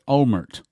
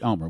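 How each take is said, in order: First: The name ends with an audible T sound. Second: The name ends without any T sound. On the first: "now we may pronounce it Olmert, with a T on the end" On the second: "the T is silent. Israelis pronounce his name Ehud Omer"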